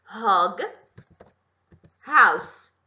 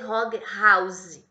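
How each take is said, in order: First: House ends with a hissing s sound. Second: House ends with a buzzing z sound. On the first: The speaker calls it right. "é com som de S" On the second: The speaker calls it wrong. "Cuidado para não fazer Hog House. Não é com som de Z"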